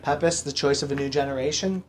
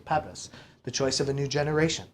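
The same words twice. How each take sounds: First: The voice rises at the end. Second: The voice falls at the end.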